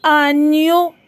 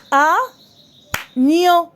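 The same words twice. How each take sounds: First: Said in the usual way. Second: "Agneau" split in two, a long pause after the A; syllable by syllable. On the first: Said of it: "écris le nombre de syllabes". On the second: Shown as a demonstration. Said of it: "deux syllabes".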